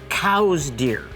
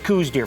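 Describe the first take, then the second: First: The first word rhymes with 'cows'. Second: The first word rhymes with 'goose'. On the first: This is the accepted pronunciation. "you're supposed to say it's cow's deer" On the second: This is their own made-up pronunciation. "we're gonna redefine the word, and it's coos deer"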